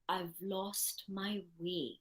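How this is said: It is said in a sad tone. "in a sad way"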